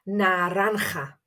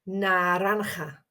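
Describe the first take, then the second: Both takes have the same delivery.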